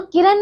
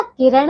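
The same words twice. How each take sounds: First: किरण ending in plain n; dental n. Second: किरण ending in retroflex ण. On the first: Teacher showing wrong किरण with plain n. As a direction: say किरण as kiran. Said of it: "किरण नहीं होता". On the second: Teacher correcting pupils, किरण with retroflex n. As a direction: curl the tongue ending किरण. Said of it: "किरण होता है". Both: Shown as a demonstration.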